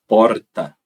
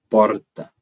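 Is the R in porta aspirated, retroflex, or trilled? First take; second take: trilled; trilled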